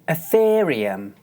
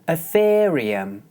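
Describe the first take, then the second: The two takes are said the same way.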